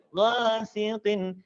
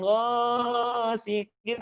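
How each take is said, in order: First: "ghasiqin" with measured long a; swayed vowel. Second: "ghasiqin" with first vowel stretched; overlong vowel. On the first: Teacher models the fix, swayed "ghasiqin". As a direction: swing "gha" without overholding it. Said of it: "ayun ghasiqin". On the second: Teacher shows what to avoid, overlong "ghasiqin". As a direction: drag out the "gha" of "ghasiqin". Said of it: "tidak kepanjangan". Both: Shown as a demonstration.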